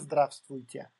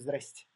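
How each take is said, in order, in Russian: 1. Приветствие произносится со всеми слогами. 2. Приветствие произносится с пропущенными слогами. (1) "мы не говорим" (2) "мы говорим"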